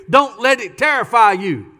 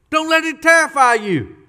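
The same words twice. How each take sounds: First: Said in the usual way. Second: "terrify" hit high in a falling "Don't let it terrify you"; emphatic repeat. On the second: Shown as a demonstration. Preacher repeating Isaiah to the church, stressing "terrify". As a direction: repeat it pitched up, leaning on "terrify".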